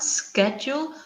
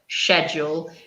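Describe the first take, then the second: First: The word begins with a hard k sound. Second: The word begins with a soft sh sound. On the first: "with a k sound" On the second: "or sh"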